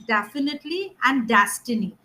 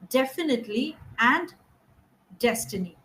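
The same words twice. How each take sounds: First: The first vowel is a broad 'a' sound. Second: The first vowel is a narrow 'eh' sound. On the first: The speaker calls it wrong. "What is happening is" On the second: The speaker calls it right. "We need to narrow it down to eh"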